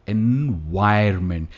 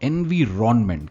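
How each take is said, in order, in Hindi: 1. बीच का हिस्सा 'vye-ur' बोला जाता है। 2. बीच का हिस्सा 'veer-on' बोला जाता है। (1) "ये है एनवायरमेंट" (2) "वो इस वर्ड को एनवीरॉनमेंट कहते थे"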